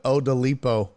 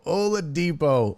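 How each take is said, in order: First: "Odalipo" with d and l swapped, oh-da-LEE-po; "Odalipo" read exactly as mistyped, oh-da-LEE-po; misspelled name read out. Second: "Oladipo" with the d before the p syllable, oh-la-DEE-po; "Oladipo" said properly, oh-la-DEE-po; correct name pronunciation. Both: Shown as a demonstration. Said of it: "but he put Odalipo".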